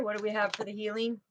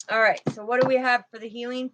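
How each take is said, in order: First: Quiet, fast repeat of the question under her breath; murmured to herself. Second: Said in the usual way. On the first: Real, not acted. Tarot reader asking Father about the healing, quiet murmur. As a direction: ask it again softly, almost to yourself.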